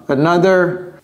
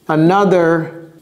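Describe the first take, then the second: Both takes have the same delivery.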